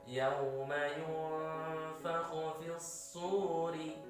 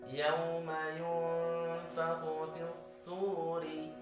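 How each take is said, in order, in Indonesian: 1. Vokal panjang pada suri dibaca dua harakat. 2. Vokal panjang pada suri dibaca dua harakat.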